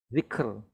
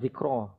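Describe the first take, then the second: First: The word ends on the consonant r. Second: The word ends with a short a vowel. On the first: The speaker calls it right. "Stopping dhikr" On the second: The speaker calls it wrong. "not dhikra"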